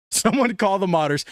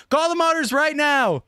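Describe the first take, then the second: First: Said in the usual way. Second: High-pitched, excited order; pitched-up, hyped demand; urgent call. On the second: Real, not acted. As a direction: call it out like it can't wait. Urgent repeat, calling out in excitement.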